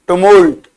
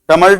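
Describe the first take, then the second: First: The first vowel sounds like 'oo'. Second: The first vowel sounds like 'uh'. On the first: The speaker calls it right. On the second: The speaker calls it wrong.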